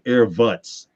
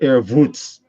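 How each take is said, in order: First: It has a short, casual street-style vowel. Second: It has a drawn-out, foreign-sounding formal vowel. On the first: It is how people in the neighborhood would say it. "if you said it from the in, around the projects" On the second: The speaker wants to sound professional. "I add the Voots like I'm Russian or something"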